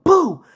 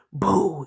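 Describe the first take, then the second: First: Sudden high, loud shout; jump-scare yell, pitched right up; yelled boo. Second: Scary boo. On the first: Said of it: "and yelled". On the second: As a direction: imitate a scare close to someone's ear. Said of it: "scary as fuck in my ear". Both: Retold or imitated.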